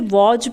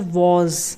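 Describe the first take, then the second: First: The word ends with a 'j' sound. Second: The word ends with a 'z' sound. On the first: The speaker calls it wrong. "बहुत से लोग इसे वॉज पढ़ते हैं, जो कि गलत है" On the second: The speaker calls it right. "ज पे बिंदी आ जाती है तो ज बन जाता है"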